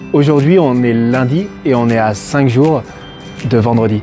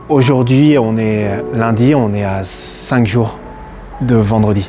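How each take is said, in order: First: The sentence is said with a cheerful melody. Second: The sentence is said with a sad melody. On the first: "C'est déjà un peu plus gai" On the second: "on est d'accord que c'est plutôt triste"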